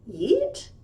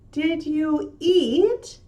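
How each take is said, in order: First: The words are squeezed into one short syllable. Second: Each word is said separately and fully.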